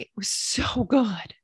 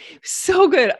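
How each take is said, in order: First: Soft savoring. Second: Excited burst. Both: Real, not acted.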